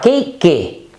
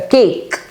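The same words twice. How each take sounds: First: The word ends with an added vowel sound. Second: The word ends with a final k consonant. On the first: The speaker calls it wrong. "Se alguém falar cake, está errado" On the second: The speaker calls it right. "termina com K"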